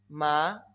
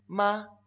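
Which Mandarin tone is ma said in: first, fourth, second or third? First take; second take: second; first. First: The syllable is said in the second tone. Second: The syllable is said in the first tone.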